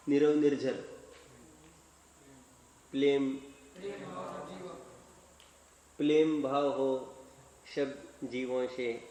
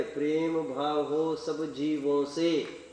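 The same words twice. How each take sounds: First: Put-on a light toddler lisp, r turning to l in Prem; mildly imitated lisping little boy reciting; lisping child. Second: Slow, drawn-out mockery of the lisped line with Prem said clearly; slow sneering echo of the child's line; mock lisped recital. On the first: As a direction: recite like a small child who cannot say r, Prem as plem. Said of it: "तोतले, तोतले आवाज में". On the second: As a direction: stretch each word to mock the recitation. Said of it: "वो भी ऐसे ही आवाज में".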